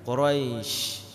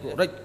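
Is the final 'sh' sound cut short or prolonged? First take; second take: prolonged; cut short. First: The final sh sound flows on. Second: The final sh sound is cut short. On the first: The speaker calls it right. "Dia harus berjalan" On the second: The speaker calls it wrong. "Enggak boleh"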